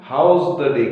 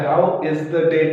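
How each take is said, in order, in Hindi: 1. 'How is' को एक शब्द में समेट कर बोला जाता है। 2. 'How is' दो पूरे शब्दों की तरह बोला जाता है।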